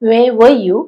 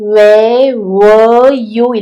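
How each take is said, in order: First: The word 'were' has a short, reduced vowel. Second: The word 'were' has a full, stressed vowel. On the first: The speaker calls it right. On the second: The speaker calls it wrong.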